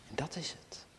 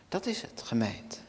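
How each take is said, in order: First: Soft whispered conclusion. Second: Said in the usual way. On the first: Acted. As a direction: breathe it to the congregation. Sermon climax, sudden hush.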